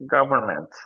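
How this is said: It is said with an American accent. "But USA"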